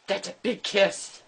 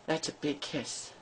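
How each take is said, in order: First: Said in the usual way. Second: Soft breathy whisper of "big kiss". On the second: Real, not acted. Mom to her dog, repeating it in a whisper. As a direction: hush it right down, all breath.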